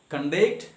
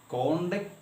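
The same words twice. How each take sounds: First: The stress is on the second syllable. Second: The stress is on the first syllable. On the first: It is used as a verb. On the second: It is used as a noun. "conduct is a noun"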